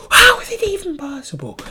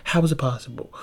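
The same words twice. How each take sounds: First: High exaggerated complaint about the noise; mock exasperated squeal. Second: Said in the usual way. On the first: Shown as a demonstration. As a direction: squeal it in comic disbelief. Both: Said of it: "How the fuck can people be so goddamn loud".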